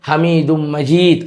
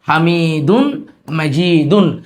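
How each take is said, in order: First: The n blends into m; the last ending drops. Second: Both words keep their full -un endings.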